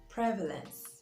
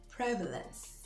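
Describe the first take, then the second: First: The stress is on the first syllable. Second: The stress is on the first syllable.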